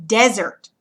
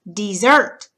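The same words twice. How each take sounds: First: Desert said DEZ-ert, front stressed; first-syllable stress. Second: Desert said dih-ZERT, end stressed; second-syllable stress. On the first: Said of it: "accent mark goes over the S". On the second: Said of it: "accent is gonna go over the second syllable". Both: Shown as a demonstration.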